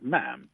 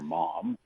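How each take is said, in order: First: The vowel sounds like the one in 'jam'. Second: The vowel sounds like the one in 'mom'. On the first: The speaker calls it right. "it's pronounced like jam" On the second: The speaker calls it wrong. "you're not supposed to say mom"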